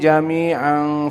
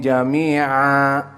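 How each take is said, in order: First: The word ends with a final n sound. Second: The word ends without a final n sound. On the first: The reader runs on into the next word. "kalau disambung ditanwinkan" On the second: The reader stops after this word. "jika antum waqaf di jami'an jangan ditanwinkan"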